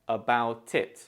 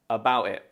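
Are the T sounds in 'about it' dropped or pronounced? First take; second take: pronounced; dropped. First: The T is pronounced and linked to the vowel. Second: The T sounds are dropped entirely. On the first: "we connect the words and it sounds like" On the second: "you can drop the T's all together"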